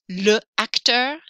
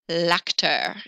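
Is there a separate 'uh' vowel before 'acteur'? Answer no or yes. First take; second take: yes; no. First: A separate 'uh' vowel comes before the next vowel. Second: The l joins straight onto the next vowel. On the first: The speaker calls it wrong. "you don't want to say le acteur" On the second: The speaker calls it right. "they say l'acteur instead"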